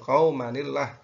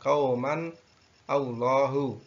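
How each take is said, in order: First: The two words run together without a break. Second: The two words are said separately with a break. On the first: The speaker calls it right. "cara membacanya adalah seperti itu, atau qaumanillah" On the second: The speaker calls it wrong. "tidak qauman Allahu. Nanti salah karena itu tanda tanda wasol, tidak boleh berhenti"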